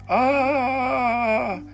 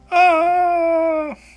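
First: The scream is in a lower voice. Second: The scream is in a higher voice.

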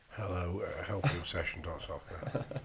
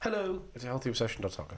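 First: The voice sounds flat and unhappy. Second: The voice sounds brighter and cheerful. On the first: The speaker calls it wrong. "you don't sound very happy, mate" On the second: The speaker calls it right. "That's better"

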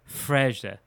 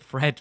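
First: The name ends with a soft J-like sound. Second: The name ends with a plain English D sound. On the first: The speaker calls it right. "it's pronounced something like Freja" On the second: The speaker calls it wrong. "we pronounce it Fred"

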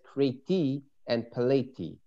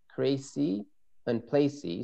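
First: The names are said with a t sound. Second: The names are said with an s sound. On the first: "If we pronounce this like a tough" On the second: "In the Hebrew, it is Crecy and Placy"

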